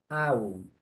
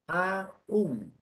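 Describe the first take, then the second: First: It is said as one syllable, unstressed. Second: It is said as two syllables, stressed. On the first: It means even. "como una palabra átona con diptongo" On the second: It means still or yet. "como una palabra tónica con hiato"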